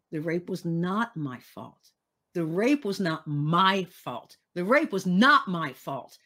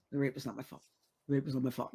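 First: "not" and "my" stressed in turn, each repeat firmer; deliberate affirmation, a different word of "not my fault" punched each time; shifting emphasis. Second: Low, quiet, rushed recital with no feeling; dispassionate. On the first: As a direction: lean hard on NOT, then on MY, with growing conviction. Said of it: "it became emphasis on different words". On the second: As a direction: recite it detached, as if going through the motions. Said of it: "very dispassionate". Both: Retold or imitated.

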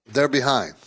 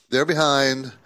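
The two takes are said the same way.

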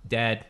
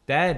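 First: Said in the usual way. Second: Dead jumps way up in pitch and louder; emphatic high repeat. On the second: Acted. Telling friends the daycare guy died, emphatic high Dead. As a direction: punch the repeated word high and hard.

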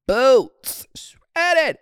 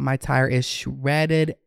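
First: High, loud disbelieving cry of boots, shredded; exaggerated shocked squeal. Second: Said in the usual way. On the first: To viewers about her blown tire, high shocked squeal.

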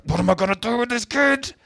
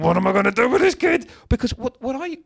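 First: Mock growl under breath. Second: Much higher, despairing cry to the heavens; exasperated plea to the ceiling. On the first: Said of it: "growling under my breath". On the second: Retold or imitated. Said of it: "looked at the ceiling and went".

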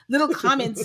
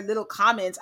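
First: "little" lingered on and mocked, a little louder; stress on little. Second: Said in the usual way. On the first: Shown as a demonstration. Host savoring the man's phrase "little" with stress. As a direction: lean into "little" with amused scorn. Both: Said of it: "I love the, the addition of little".

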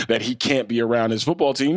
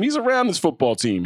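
First: Said in the usual way. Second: "He's" lifted high and punched at the start, the rest falling away; stress on he's. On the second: Real, not acted. Co-host insisting the owner is around the team, leaning on "He's". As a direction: hit "He's" hard and high, then let "around his football team" drop. Emphatic repeat correcting the point.

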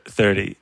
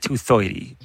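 First: Said in the usual way. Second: "thirty" said as "thoity"; toddler's "thoity" for "thirty"; little-kid pronunciation. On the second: Retold or imitated. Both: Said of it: "how little kids say thir-, thirty".

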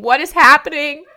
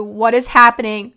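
First: Higher and louder, a panicked cry; desperate scream. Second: A louder, urgent question; retold screaming. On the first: Retold or imitated. Begging her unresponsive dad, in a high, panicked cry. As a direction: let the panic push the voice up. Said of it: "I just kept saying". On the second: Pleading with her seizing dad, in an urgent raised voice. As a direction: call it out urgently, at normal pitch. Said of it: "I was screaming at him so loudly".

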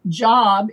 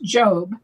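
First: Job rhyming with rob, short open vowel; everyday pronunciation. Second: Job with a long o, rhyming with robe; Biblical pronunciation. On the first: Explaining a Hebrew word for persecuted, everyday pronunciation of Job. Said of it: "though it's pronounced Job in that instance". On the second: Correcting how the Hebrew word is pronounced, Job with long o. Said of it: "it's pronounced Job in that instance". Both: Shown as a demonstration.

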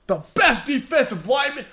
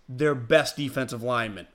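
First: The best defensive lineman pitched much higher, scoffing disbelief; mock fan outrage. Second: Said in the usual way. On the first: Host mimics fans attacking his tweet, scoffing high. Mocks angry fans' reaction.

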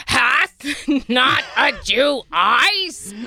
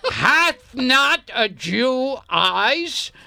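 First: Declaiming shout. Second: Slow, grand stage delivery; Shakespearean declaiming. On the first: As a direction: bellow it on stage. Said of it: "I like how you do that iambic pentameter". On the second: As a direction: declaim it like King Lear. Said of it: "One more time, please". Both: Pretend.

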